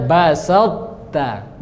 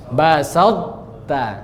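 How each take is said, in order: Both takes have the same delivery.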